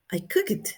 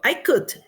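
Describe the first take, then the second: First: COOKED in two syllables, "cook-it", rising; wrong -ed ending. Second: COOKED kept to one syllable, "kukt"; no vowel before the T in COOKED; correct past ending. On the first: Teacher showing a crime in English, wrong -ed ending. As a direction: put a vowel in the ending of COOKED. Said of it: "Eso sí no es, no está bien". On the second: Teacher contrasting the right past, correct past ending. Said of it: "yo cociné". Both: Shown as a demonstration.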